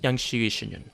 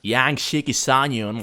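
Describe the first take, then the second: First: The name is said without an American pronunciation. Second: The name is said with an American pronunciation. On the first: The speaker calls it right. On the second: The speaker calls it wrong.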